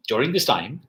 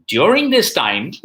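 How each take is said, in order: First: Said in the usual way. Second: Higher, louder and slower, stressing this; loud slow emphasis. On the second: Real, not acted. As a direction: land During this time slowly and loudly. Repeated phrase for emphasis.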